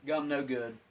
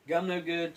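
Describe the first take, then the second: First: Said in the usual way. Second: Higher and louder, a playful caveman grunt of "Gum no good"; mock caveman verdict. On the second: Vlogger rejects the stale gum, in a mock caveman voice.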